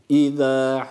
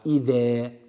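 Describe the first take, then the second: First: The vowel falls between 'e' and 'a'. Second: The vowel is a clear 'e' sound. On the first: The speaker calls it right. "e a arası bir sesle. Tam ortasını yakalayacağız" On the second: The speaker calls it wrong. "Yani İza veya İze değil"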